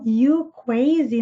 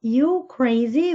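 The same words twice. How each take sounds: First: "crazy" slowly as "cwazy". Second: "crazy" slowly with its R pronounced; correct R sound. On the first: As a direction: demonstrate the speech problem, "crazy" with W for R. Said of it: "ele fala um W". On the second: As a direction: model "crazy" with a clear R, not W. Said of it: "quer dizer crazy". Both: Shown as a demonstration.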